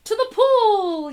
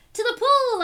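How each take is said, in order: First: Loud, higher, drawn-out yell; fireman yelling. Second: Higher excited yell; boy yelling. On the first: Fireman yelling the destination to the boy, loud slow yell. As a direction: call it out slowly like a fireman. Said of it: "yelled the fireman". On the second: Boy yelling back to the fireman, excited higher yell. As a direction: shout it back eagerly. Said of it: "I yelled". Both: Acted.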